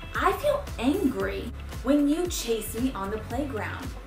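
The voice is calm, clear and firm. The listener will take the message seriously. The speaker calls it right. "It was calm, but it was also firm"

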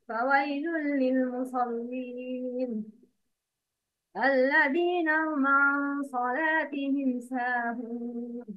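There is a stop right after the second word. The warning seems to apply to all worshippers. The speaker calls it wrong. "The wrong is"

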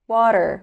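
It is said with an American accent. "وبعدين الأمريكان أكسنت"

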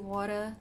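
The word is said in a British accent. "I had a lot more British pronunciations"

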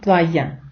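The middle consonant is a 'y' sound. "аргентинці не кажуть плая"

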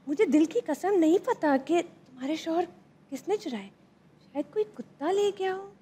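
It is said in a curious, questioning tone.

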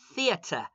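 It is said in a British accent with a clear t.

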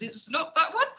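The voice rises at the end. The speaker is asking. "it actually came out as a question rather than a statement"

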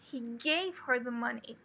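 The stress falls on the word gave. The money was given, not lent. "He didn't lend her the money"

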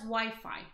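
The word is said with an English pronunciation. "we know this as Wi-Fi"

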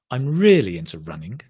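The voice falls at the end. The speaker calls it right. "Notice the intonation at the end comes down"

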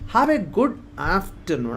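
The stress falls on the word good. The speaker calls it right. "അവിടെ ഞാൻ ഗുഡിനാണ് stress കൊടുത്തത്"

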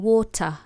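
The middle T is crisply pronounced. "But I would say water"

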